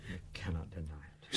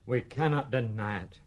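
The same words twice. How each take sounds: First: Much softer, like a distant echo; faint echo. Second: Said in the usual way. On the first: Acted. Father's admission echoes faintly, much softer. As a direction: let it fade away as an echo. Father repeats it, far quieter.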